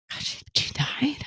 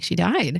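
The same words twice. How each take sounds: First: Stunned whisper, rising question; breathy whispered question as the news lands; hushed shock. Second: Said in the usual way. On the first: Retold or imitated. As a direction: whisper it in disbelief. Boyfriend reacts to news of death.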